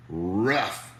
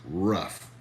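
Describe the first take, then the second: No difference in how they are said.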